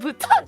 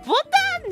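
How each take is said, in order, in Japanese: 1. 英語風に'buton'と言っています。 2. 日本語風に'botan'と言っています。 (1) "ブトンじゃないよ" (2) "ボタンでしょ"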